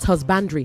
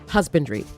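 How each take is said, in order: First: The stress is not on the first syllable. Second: The stress is on the first syllable. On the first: The speaker calls it wrong. "not husbandry" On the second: The speaker calls it right. "The emphasis is on hus"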